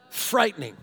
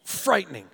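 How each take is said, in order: Both takes have the same delivery.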